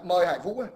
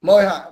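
First: Said in the usual way. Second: Loud call to the next caller. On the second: Real, not acted. Host calling the next caller on the livestream, loud call. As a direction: call the name out across the room.

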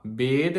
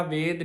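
First: ਵੇਦ said with a b sound, bed; correct pronunciation. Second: ਵੇਦ said with a v sound, ved, the wrong way; wrong pronunciation. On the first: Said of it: "ਵੇਦ ਨੂੰ ਬੱਬੇ ਨਾਲ ਬੋਲਣਾ ਹੈ". (ਸਹੀ ਉਚਾਰਨ ਵੇਦ ਬੱਬੇ ਨਾਲ) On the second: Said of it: "ਵਾਵੇ ਨਾਲ ਨਹੀਂ ਬੋਲਣਾ". (ਗਲਤ ਉਚਾਰਨ ਵੇਦ ਵਾਵੇ ਨਾਲ) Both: Shown as a demonstration.

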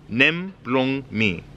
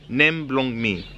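First: Stretched out word by word; slow, separated language lesson phrase; slow teaching demonstration. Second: Slightly quicker teaching repeat. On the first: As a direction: say each word slowly for learners. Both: Shown as a demonstration. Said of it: "teaching you some basics".

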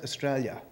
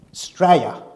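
First: Said in the usual way. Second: Australia cut down to "Straya", first syllable dropped; clipped local pronunciation. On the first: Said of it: "is not pronounced Australia". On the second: Shown as a demonstration. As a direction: say "Straya" as two syllables, Aussie style. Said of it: "We call it".

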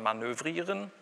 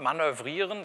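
First: Said in the usual way. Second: Manövrieren with long, stressed vowels; manövrieren mispronounced on purpose; wrong pronunciation demo. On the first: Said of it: "sondern manövrieren". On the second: Shown as a demonstration. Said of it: "Das heißt aber nicht man".

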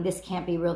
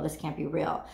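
First: Disbelieving, at her usual level; stunned disbelief. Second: Lower, softer, dying away; fading disbelief. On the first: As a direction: state the disbelief plainly. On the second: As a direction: let it trail off in disbelief. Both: Pretend. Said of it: "And the feeling is".

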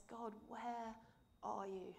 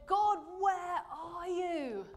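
First: Softer, hushed plea of pain; quiet suffering plea. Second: Slow, high, louder anguished plea; anguished cry. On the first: Jesus in his suffering asking God, a soft hushed plea. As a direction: ask it softly, worn down by suffering. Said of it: "in his suffering says". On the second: Jesus crying to God from the cross, slow anguished cry. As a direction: cry out to God in agony, drawn out. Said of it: "cried out and essentially said". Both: Acted.

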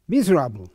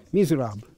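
First: A Hungarian fencing master's disdainful verdict; Hungarian accent. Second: Said in the usual way. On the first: Retold or imitated. Hungarian maestro judging a student's lunge, Hungarian accent. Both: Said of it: "Good Hungarian accent".

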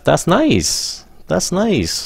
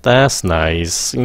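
First: Be happy for them; high, pleased. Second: Sarcastic. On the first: Teacher showing students a cheerful, high That's nice. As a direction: pitch lifted high on That's nice, warm praise. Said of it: "Lên giọng". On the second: Teacher demonstrating a sarcastic, low That's nice. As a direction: pitch dropped, flat and unimpressed That's nice. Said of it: "Nếu các bạn xuống giọng". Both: Shown as a demonstration.

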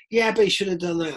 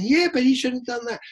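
First: Higher, pushy fan retort; bloke in the crowd. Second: Much higher woman's voice; woman in the crowd. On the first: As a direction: argue back like a mate. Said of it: "the bloke next to you is going". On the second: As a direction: raise pitch to play her. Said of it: "the woman next to you is going". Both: Retold or imitated.

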